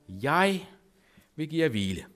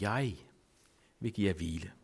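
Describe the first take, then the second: First: The word jeg carries strong stress. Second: The word jeg carries no special stress.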